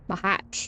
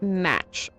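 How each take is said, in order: First: It is two syllables ending in a ch sound. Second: It is one syllable ending in a ch sound. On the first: "Maybe more like that" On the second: "It's pronounced match, I think"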